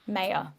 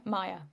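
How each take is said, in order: First: First syllable of Maya rhymes with say; MAY-uh pronunciation. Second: First syllable of Maya rhymes with sky; MY-uh pronunciation. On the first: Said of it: "can't remember how you say". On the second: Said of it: "I think it's Maya". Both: Shown as a demonstration.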